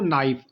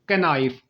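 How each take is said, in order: First: The k at the start is silent. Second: The k at the start is pronounced. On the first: The speaker calls it right. "के silent होता है" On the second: The speaker calls it wrong. "अक्सर लोग यही पढ़ते हैं"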